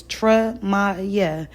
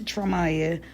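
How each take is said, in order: First: Tremaya said tre-MAI-ya, falling at the end; syllable-clear name. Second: Said in the usual way. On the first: Shown as a demonstration. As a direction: lay out Tremaya in three even beats. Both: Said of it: "Three syllables".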